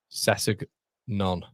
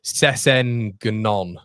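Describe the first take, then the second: First: Sessegnon said slowly and whole, "Sess-eg-non", settled; a slow, sure second try at Sessegnon; checking the name. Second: Sessegnon sounded out very slowly, syllable by syllable, "Se-sen-ke-non"; sounding it out. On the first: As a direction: say Sessegnon slowly as one word once it's worked out. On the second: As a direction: spell out Sessegnon sound by sound at a crawl. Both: Shown as a demonstration. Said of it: "have you spelled it?".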